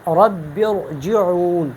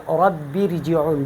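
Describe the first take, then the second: First: رب ارجعون with a full, heavy r, drawn out slowly. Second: رب ارجعون with the r said thin and light, slowly. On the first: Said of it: "بلکہ ہم پڑھیں گے". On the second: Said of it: "ہم اس کو رب ارجعون نہیں پڑھیں گے". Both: Shown as a demonstration.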